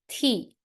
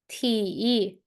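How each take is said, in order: First: The pitch falls sharply from high. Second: The pitch dips low, then rises. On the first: "And how about the last one?" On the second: "And how about the third?"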